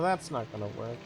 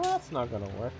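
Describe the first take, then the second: First: It is said flatly, without much energy. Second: It is said with more enthusiasm and energy.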